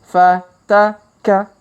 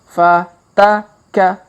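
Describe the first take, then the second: The two takes are said the same way.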